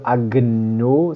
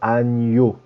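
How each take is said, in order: First: The g and n are said as separate sounds. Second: The g and n merge into one 'ny' sound. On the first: The speaker calls it wrong. "Pas de agneau" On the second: The speaker calls it right. "c'est agneau"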